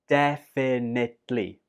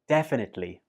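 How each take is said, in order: First: The word is said slowly. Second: The word is said quickly. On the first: "A bit slower"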